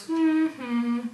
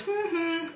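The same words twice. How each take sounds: First: Creepy answering hum, held out; drawn-out hummed answer; lower-frequency reply. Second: High, soft two-note hum; hummed call. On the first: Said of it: "it's a lower frequency". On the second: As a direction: imitate the girl's hum, high and light. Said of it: "after she does". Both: Retold or imitated.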